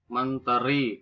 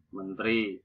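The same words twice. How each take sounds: First: "Menteri" in three syllables; standard pronunciation. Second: "menteri" squeezed to men-tri; nonstandard pronunciation. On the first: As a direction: say men-te-ri for "Menteri". (ucapkan "Menteri" dengan e jelas) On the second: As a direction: drop the middle vowel of "menteri". (ucapkan "menteri" menjadi mentri) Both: Shown as a demonstration. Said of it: "bukan menteri".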